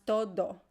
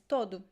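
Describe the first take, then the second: First: The final vowel is a full o sound. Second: The final vowel is a weak u sound. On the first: The speaker calls it wrong. "But you don't pronounce todo" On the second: The speaker calls it right. "the most common pronunciation is todo"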